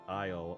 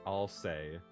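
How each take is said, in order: First: The name sounds like the word isle. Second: The name has two syllables, ending in say. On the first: "My dyslexia read isle like an island" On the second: "not Alsay"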